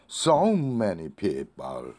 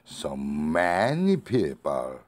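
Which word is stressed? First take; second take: so; many. First: The word "so" is said higher and stronger. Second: The word "many" is said higher and stronger. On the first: "so를 강조하고 싶으면" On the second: "many를 강조하고 싶으면"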